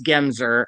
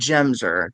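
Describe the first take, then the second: First: The first syllable does not sound like 'gem'. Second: The first syllable sounds like the word 'gem'. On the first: This is the standard pronunciation of the name. "So I know it's Gemser" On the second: "I pronounce it Gemser. That's my little quirk"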